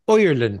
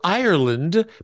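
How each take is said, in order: First: It is said in an Irish accent, oi sound. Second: It is said in a plain standard accent. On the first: "the I is pronounced oi ... the D is pronounced like a T" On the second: "the word Ireland becomes"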